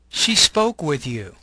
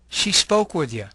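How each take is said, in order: First: Each word is said fully and separately. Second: The words are weakened and run together. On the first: "you'll have the long form" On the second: "The second column has a reduced form"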